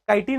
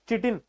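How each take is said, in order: First: The word begins with a k sound. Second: The word begins with a ch sound. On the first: The speaker calls it right. "काइटिन होता है जितना मुझे पता है" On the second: The speaker calls it wrong. "चिटिन नहीं होता exact pronunciation"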